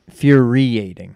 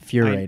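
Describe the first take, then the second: First: The syllable after 'fur' is fully pronounced. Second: The syllable after 'fur' is dropped. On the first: The speaker calls it right. "it's infuriating" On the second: The speaker calls it wrong. "not furating. / I think you missed the syllable"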